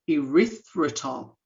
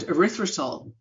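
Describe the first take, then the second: First: The word is said slowly and carefully. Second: The word is said at normal speed.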